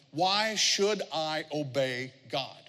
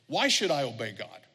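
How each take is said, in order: First: Drawn out word by word; slow, deliberate question. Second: Said in the usual way. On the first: Shown as a demonstration. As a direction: weigh every word of the question. First, deliberate take of question.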